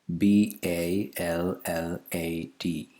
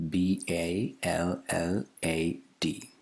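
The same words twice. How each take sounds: Both takes have the same delivery.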